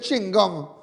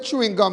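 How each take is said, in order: First: The first word is shortened to one syllable. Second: The first word is said in full. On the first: This is the local way of saying it. "We say ching gum" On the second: This is not the local way of saying it. "We don't say chewing gum"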